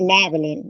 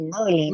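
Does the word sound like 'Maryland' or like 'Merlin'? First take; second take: Maryland; Merlin. First: The word sounds like 'Maryland'. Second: The word sounds like 'Merlin'. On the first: This is the speaker's own way of saying it. The speaker calls it right. "I say Maryland" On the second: This is how other people say it. The speaker calls it wrong. "y'all say Merlin, ... that's the magician"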